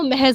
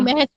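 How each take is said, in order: First: The final consonant is a 'z' sound. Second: The final consonant is a 'j' sound. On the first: The speaker calls it right. "लेकिन वो महज होता है" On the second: The speaker calls it wrong. "बहुत लोग महज पढ़ते हैं"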